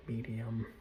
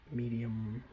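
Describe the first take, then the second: No difference in how they are said.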